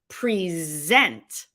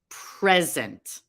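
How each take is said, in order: First: The stress is on the second syllable. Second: The stress is on the first syllable. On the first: It is a verb meaning to offer. "the emphasis is now on the second syllable" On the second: It is a noun meaning a gift. "The stress is on the first syllable and the word is a noun"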